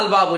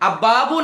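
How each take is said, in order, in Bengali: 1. উপসর্গের L ধ্বনিটি স্পষ্ট করে উচ্চারণ করা হয়। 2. L ধ্বনিটি মিশে গিয়ে দ্বিত্ব B ধ্বনি হয়ে যায়।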